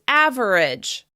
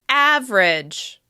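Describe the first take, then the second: First: The word is said with three syllables. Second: The word is said with two syllables. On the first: "Some people will say this word as average" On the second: "we're going to practice it with just two syllables"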